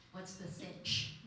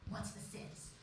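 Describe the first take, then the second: First: "sitch" ending clearly in ch, drawn out slowly; teacher's slangy line. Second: "sits" said with a plain s sound, a soft half-whisper; teacher's slangy line. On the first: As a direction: land the ch in "sitch", taking your time. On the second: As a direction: say "sits" ending in a hissed s, like a slip. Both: Retold or imitated. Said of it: "our teacher is like".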